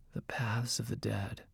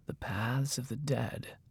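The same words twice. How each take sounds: First: Hushed, ominous mage voice; whispering voice. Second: Slow, hushed repetition; whispering voice. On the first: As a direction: utter it very softly, like a dark secret. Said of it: "in his whispering voice". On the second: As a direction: repeat it softly and slowly, with weight. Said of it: "the mage repeated". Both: A narrator's reading.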